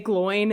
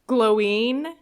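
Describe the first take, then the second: First: The name ends with an 'in' sound. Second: The name ends with a 'ween' sound. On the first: This is the form used in the films. "they say glowing in the movie" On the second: This follows the accent mark in the written name. "technically supposed to be pronounced Gloween because there's an accent on the I"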